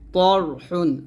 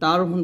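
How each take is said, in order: First: The first consonant is heavy and thick. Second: The first consonant is light and thin. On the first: The speaker calls it right. "মোটা করতে হবে" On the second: The speaker calls it wrong. "বলা যাবে না"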